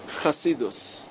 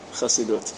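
First: Yeshivish accent, ending in -us. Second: Modern Israeli form, ending in -ut. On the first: The speaker sounds like a Lithuanian yeshiva student. "עם המבטא הישיבש" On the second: The speaker sounds like a Zionist. "זה הציונים, חסידות"

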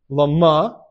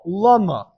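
First: The stress is on the second syllable. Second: The stress is on the first syllable. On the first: It asks for what purpose something happens. "Mile ra is you emphasize the second part of the word" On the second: It asks why something happens. "from the emphasizing the first part of the word"

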